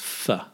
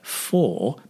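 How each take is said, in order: First: The vowel is reduced to a weak form. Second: The vowel is full and clearly pronounced.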